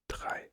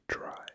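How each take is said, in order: First: The R is a throaty German R sound. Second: The R is an English-style R sound. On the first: The speaker calls it right. "but it's drei" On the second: The speaker calls it wrong. "this is not dry, like dry"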